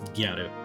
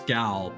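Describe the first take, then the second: First: It is said as two Japanese-style syllables. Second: It is said as one English syllable. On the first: "the way that they pronounce it in with Japanese enunciation" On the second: "the word is gal"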